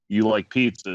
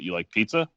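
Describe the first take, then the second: First: It is said as a plain statement. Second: It is said as a question.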